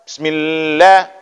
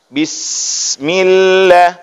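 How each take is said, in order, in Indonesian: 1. Bunyi s dipendekkan. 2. Bunyi s dipanjangkan dan mengalir. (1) "bismillah itu tidak boleh" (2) "Alirkan dulu dia"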